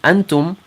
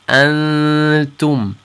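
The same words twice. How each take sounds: First: The n is a full n with tongue contact. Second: The n is hidden and nasal without tongue contact. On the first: The speaker calls it wrong. "instead of saying antum" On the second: The speaker calls it right. "our tongue won't touch the top of our mouth"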